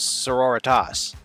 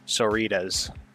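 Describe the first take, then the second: First: It is said with four syllables, like sorority. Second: It is said with three syllables, shortened. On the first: This is how the speaker expected it to sound. "I thought it was sororitas" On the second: This is how the audiobook narrator says it. "they've said it a trillion times in the novel and say it soritas"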